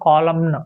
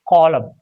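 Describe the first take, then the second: First: The final n is pronounced. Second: The final n is not pronounced. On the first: The speaker calls it wrong. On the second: The speaker calls it right. "N becomes silent"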